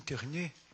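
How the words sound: It is said with a put-on French accent.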